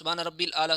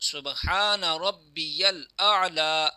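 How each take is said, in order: First: The middle word is shortened to rabbil. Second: The middle word is said in full as rabbiyal. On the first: The speaker calls it wrong. "हालांकि ये भी गलत है।" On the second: The speaker calls it right. "ये दुरुस्त तलफ़ुज़ है"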